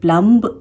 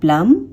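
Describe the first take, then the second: First: The final b sound is pronounced. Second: The final b sound is silent. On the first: The speaker calls it wrong. "इसे हम प्लम्ब नहीं बोलेंगे" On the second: The speaker calls it right. "यहाँ पे हम बी को नहीं pronounce करेंगे"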